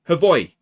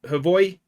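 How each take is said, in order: First: The J is said as a Y sound. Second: The same.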